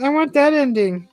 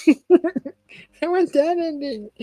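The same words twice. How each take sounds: First: Said in the usual way. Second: Slow, higher, laughing through the words; a laughing, longing repeat; laughing, drawn out. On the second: Real, not acted. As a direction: stretch it out while laughing.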